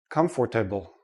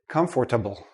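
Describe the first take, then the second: First: The word is said with all four syllables. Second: The same.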